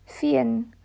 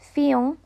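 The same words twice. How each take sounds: First: It is said with the final n fully sounded. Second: It is said French-style, the final n left nasal. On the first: The speaker calls it right. "I'd pronounce the N" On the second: The speaker calls it wrong. "I don't know why I went French there"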